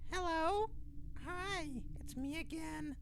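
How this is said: It is said in an elderly woman's warbly voice.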